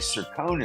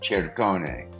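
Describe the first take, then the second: First: It starts with s; the final vowel is silent. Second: It starts with ch; the final vowel is sounded. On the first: The speaker calls it wrong. "not the correct Italian pronunciation of that, uh, because we're not sounding the last vowel" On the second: The speaker calls it right. "a C before E always should be the C H sound. So it should be Cercone"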